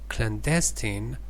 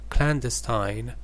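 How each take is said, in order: First: It is said with an American accent. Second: It is said with a British accent. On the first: "American pronunciation" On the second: "British pronunciation"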